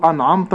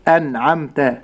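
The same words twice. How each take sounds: First: أنعمت with dark, thickened vowels; heavy letters. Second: أنعمت with thin, fronted vowels, amte-like; light letters. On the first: Sheikh showing the error, a heavy dark أنعمت. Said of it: "لا أقول أنعمت حتى لا أفخم". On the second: Sheikh showing correct أنعمت, all letters light. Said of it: "حروف هذه الكلمة مرققة". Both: Shown as a demonstration.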